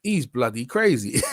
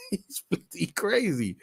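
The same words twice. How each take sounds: First: Said in the usual way. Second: Laughing. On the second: Real, not acted. Repeat with laugh.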